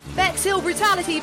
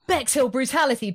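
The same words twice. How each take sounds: First: It is said in a put-on newsreader voice. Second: It is said in a plain, ordinary voice.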